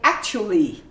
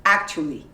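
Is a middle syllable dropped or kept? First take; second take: dropped; dropped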